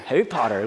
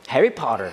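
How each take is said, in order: No difference in how they are said.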